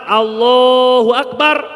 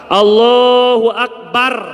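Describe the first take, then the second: Both takes have the same delivery.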